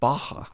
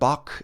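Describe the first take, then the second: First: The name ends in an open vowel sound. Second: The name ends in a hard k sound. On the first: The speaker calls it right. "It's closer to cafe Baja" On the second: The speaker calls it wrong. "it's not bok in Japanese. There's just like there's not that sound"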